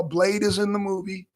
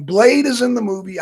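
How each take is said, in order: First: Said in the usual way. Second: Louder emphatic reveal; teasing announcement. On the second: Acted. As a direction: announce the spoiler loudly. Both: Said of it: "hate to spoil it".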